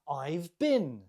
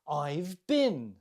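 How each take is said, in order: Both takes have the same delivery.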